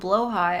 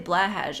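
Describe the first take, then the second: First: The word ends with a sound like 'high'. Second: The word ends with a sound like 'hash'. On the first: Listeners would think the speaker is out of it. "if I call it a blowhigh, everybody's gonna think that I'm like out of it" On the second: Everyone knows what is meant. "Willingly mispronouncing Blahash. ... everybody knows what I'm talking about"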